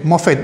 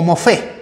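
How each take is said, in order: First: The word ends with a clear final t sound. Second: The word ends without a final t sound. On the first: "pero termina con T" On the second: "o mofé"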